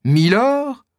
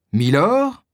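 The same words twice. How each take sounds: First: « Milord? » lancé très aigu, stupeur qui éclate; répéter « Milord? » bien plus haut, abasourdi; stupéfait. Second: S'étonner du titre, voix qui monte; étonné. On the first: (D'Artagnan répète le titre, incrédule, voix très aiguë) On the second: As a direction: question surprise, montée plus haute. (D'Artagnan s'étonne d'entendre ce titre, voix montante) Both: Acted. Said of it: "s'écrie D'Artagnan à son tour".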